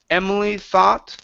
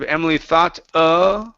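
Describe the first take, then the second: First: The words flow on with no hesitation sound. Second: A hesitation sound follows the word thought. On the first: The speaker calls it right. "Only say the words" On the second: The speaker calls it wrong. "Instead of Emily thought uh"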